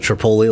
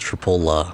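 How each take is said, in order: First: The name ends with an 'ee' sound. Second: The name ends with an 'uh' sound. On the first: The speaker calls it wrong. "instead of Tripoli, like you said the first time" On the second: The speaker calls it right. "it's Tripola"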